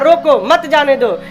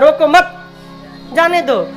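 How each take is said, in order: First: The pause comes after 'roko'. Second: The pause comes after 'mat'.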